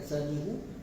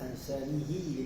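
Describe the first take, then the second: First: The word ends with a u vowel. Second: The word ends with an i vowel. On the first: "hanya Hafs saja membaca dengan ansanihu" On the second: "dengan baris kasrah"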